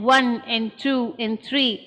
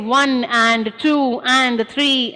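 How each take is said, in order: First: Each 'and' is squished short between the numbers. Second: Each 'and' is given full, unhurried length. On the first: The beats come at equal intervals. The speaker calls it right. "because I squish the and" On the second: The phrase takes longer to say. The speaker calls it wrong. "I don't say one and two and three and four. That would take a longer time"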